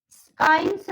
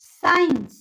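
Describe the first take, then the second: First: स्काइंस with a hard k after the s; mispronounced science. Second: Said in the usual way. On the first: Shown as a demonstration. Teacher showing what not to say, स्काइंस with k sounded. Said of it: "नहीं बोलते हम". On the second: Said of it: "स्काइंस नहीं बोलते हम".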